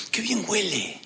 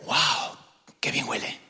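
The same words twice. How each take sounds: First: Soft admiring aside. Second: Hushed breathy "Wow, qué bien huele"; whispered admiration. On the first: Passerby admiring a nice smell. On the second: Passerby catching a lovely scent, whispering in admiration. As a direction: whisper it like a delighted secret. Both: Pretend.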